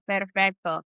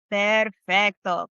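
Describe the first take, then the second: First: Said in the usual way. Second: Perfecto drawn out slowly, each syllable given time; slow model word. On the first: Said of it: "teacher repeats Spanish word". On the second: Shown as a demonstration. Teacher models Perfecto slowly for the class. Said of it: "teacher models Spanish word".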